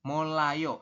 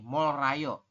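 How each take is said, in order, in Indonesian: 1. Suku kata kedua diawali dengan bunyi L. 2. Suku kata kedua diawali dengan bunyi R. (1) "maka keduanya dibaca L" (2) "Mungkin Anda akan membacanya kayak gini"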